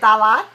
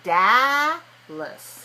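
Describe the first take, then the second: First: The second syllable has a full, clear vowel. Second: The second syllable has a weak, relaxed vowel. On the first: The speaker calls it wrong. "in English we don't want to say Dalat" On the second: The speaker calls it right. "we want to say Dallas"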